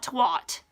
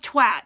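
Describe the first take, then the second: First: "twat" with an O sound, like "twot"; mispronunciation. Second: "twat" with a short A, as in "cat"; correct pronunciation. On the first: Showing how people mispronounce the slang word, "twat" as "twot". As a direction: say "twat" to rhyme with "hot". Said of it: "not twat". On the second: Correcting people who mispronounce the slang word, "twat" with an A sound. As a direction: say "twat" to rhyme with "hat". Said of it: "It's pronounced twat". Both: Shown as a demonstration.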